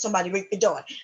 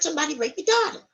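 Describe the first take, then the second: First: Spoken in a probing news reporter's voice. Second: Spoken in a high, childlike voice. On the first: A journalist is delivering the news. "Let's take it from a media standpoint" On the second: A child is delivering the news. "let's take it from a kid point of view"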